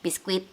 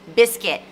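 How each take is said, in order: First: The word is said with Indonesian-style pronunciation. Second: The word is said with English pronunciation. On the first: The speaker calls it wrong. "nggak ada yang bilang biskuit kecuali kalian" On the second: The speaker calls it right. "It's biscuit"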